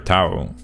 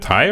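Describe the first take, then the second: First: The vowel ends with an 'oo' sound. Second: The vowel ends with an 'eye' sound. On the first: "like an U" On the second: "like an I"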